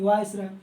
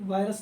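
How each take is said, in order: First: वायसराय said as vai-sa-rai, with the sa clearly in; वायसराय, each syllable vai-sa-rai given its full weight; correct viceroy. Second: वायरस said as vai-ras, the word for virus; the misreading वायरस, vai-ras, to be avoided; wrong reading virus. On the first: Teacher correcting students, वायसराय said vai-sa-rai. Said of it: "वायरस नहीं, वायसराय". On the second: Teacher showing students the wrong reading वायरस. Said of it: "वायरस नहीं". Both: Shown as a demonstration.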